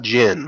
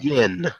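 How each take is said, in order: First: The name begins with a J sound. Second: The name begins with a Y sound. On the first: The speaker calls it wrong. "I always pronounce it wrong. It is not Barefoot Jin" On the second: The speaker calls it right. "It is Barefoot Yin"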